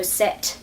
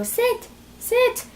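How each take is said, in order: First: Firm, steady "Sit." to a dog; firm dog command. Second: Much higher, timid "Sit, sit."; squeaky, unsure "Sit, sit." the dog ignores; wrong way to command a dog: high and timid; weak pleading command. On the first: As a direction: give the dog a strong command. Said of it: "make sure it's a strong voice". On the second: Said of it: "no, don't go". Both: Shown as a demonstration.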